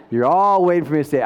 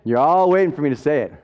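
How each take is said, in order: First: Laughing. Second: Said in the usual way. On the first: Shown as a demonstration.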